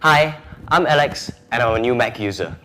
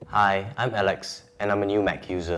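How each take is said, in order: First: It is said livelier, with more energy. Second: It is said flatly, with little energy.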